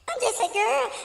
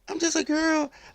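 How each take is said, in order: First: It is said in a put-on girlish voice. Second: It is said in the speaker's normal voice.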